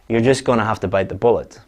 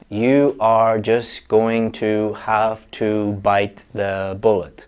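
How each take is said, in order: First: Words are reduced and linked, like gonna, hafta. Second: Each word is said fully and separately. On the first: The speaker calls it right. "there's connected speech here, connected speech here, gonna, have to. There is schwa here" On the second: The speaker calls it wrong. "you're not going to say"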